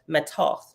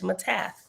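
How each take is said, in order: First: It is said with two syllables, ending in 'toth'. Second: It is said with three syllables, ending in 'tha'. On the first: The speaker calls it right. "is pronounced matoth" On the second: The speaker calls it wrong. "I was saying it wrong"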